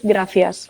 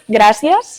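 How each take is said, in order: First: It is said with a Spanish pronunciation. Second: It is said with a Catalan pronunciation. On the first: "and Spanish is gracias" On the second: "Catalan it's gracias"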